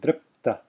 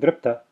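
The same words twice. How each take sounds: First: The p is held in a brief pause. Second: The p runs straight into the t. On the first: The speaker calls it right. "I'm putting a pause there between, as if a pause between the p and the t" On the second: The speaker calls it wrong. "notice I'm not saying dripta"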